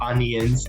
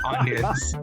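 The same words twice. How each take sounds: First: The middle 'i' sound is clearly pronounced. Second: The middle 'i' sound is dropped entirely. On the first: This is the speaker's own way of saying it. "I say onions" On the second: This is how everyone else says it. "everyone says onions ... We don't say the I really at all"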